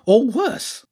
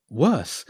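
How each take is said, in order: First: High-pitched, foreboding creature voice; hint at doom in a high voice; ominous hedgehog character. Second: Said in the usual way. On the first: Acted.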